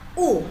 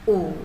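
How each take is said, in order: First: The pitch falls sharply downward. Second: The pitch dips, then rises. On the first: "dipukul ke bawah" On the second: "turun dulu sebentar, baru perlahan naik ke atas"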